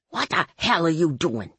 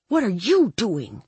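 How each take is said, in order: First: Lightly voiced indignant man; Ray. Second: Higher retort, stress on YOU; hissed. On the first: Ray pulls her hand away, indignant voice. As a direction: demand it in a put-on man's voice. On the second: Dory turns it back on Ray, hissed retort. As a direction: throw it back with emphasis on YOU. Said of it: "I hissed". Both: A narrator's reading.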